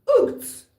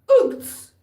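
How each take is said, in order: Both takes have the same delivery.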